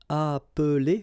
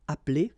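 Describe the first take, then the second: First: The middle e sound is pronounced. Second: The middle e sound is dropped.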